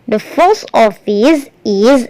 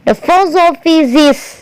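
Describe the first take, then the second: First: Each word is said separately, choppily. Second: The words run together, office linking into is. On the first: The speaker calls it wrong. "kalian baca patah-patah kayak gini" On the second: The speaker calls it right. "kalau menggunakan pengucapan yang benar"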